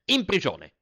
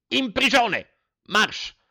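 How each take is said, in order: First: Loud furious command, high; angry order. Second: Much higher, louder furious scream; top-of-lungs shout. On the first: Headmaster orders the boy to prison, angry. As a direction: bark the sentence at the boy. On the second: Headmaster screams the sentence again, at full fury. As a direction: let the rage peak on the repeat. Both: Acted.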